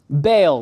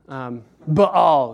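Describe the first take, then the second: First: The name is said with English pronunciation. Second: The name is said with Hebrew pronunciation. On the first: The speaker calls it right. "we're just not going to pronounce anything with Hebrew pronunciation" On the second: The speaker calls it wrong. "I think it sounds a little bit uppity"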